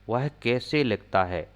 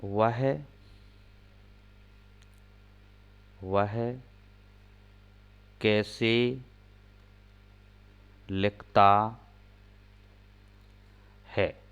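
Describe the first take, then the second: First: Said in the usual way. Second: Slow, with long gaps between words; slow dictation pace; dictating word by word. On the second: Shown as a demonstration. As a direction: dictate each word for writing. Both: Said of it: "एक और sentence देखते हैं".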